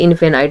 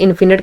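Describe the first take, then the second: First: The word ends with a long 'night' sound. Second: The word ends with a short 'nit' sound. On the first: The speaker calls it right. "लेकिन ये इनफेनाइट word होता है" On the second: The speaker calls it wrong. "कुछ लोग इन्फिनिट के नाम से करते हैं"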